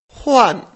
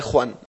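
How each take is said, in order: First: "Juan" as Chinese huan, loud, high and falling; teacher's emphatic falling model of "Juan" as huan; soft H, fourth tone. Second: Said in the usual way. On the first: Shown as a demonstration. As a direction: soften the Spanish J of "Juan" into an H, pitch dropping. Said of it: "es una H más suave". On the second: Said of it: "la pronunciación del nombre Juan".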